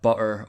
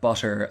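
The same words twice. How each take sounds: First: The middle t is a glottal stop. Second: The middle t is a clear t.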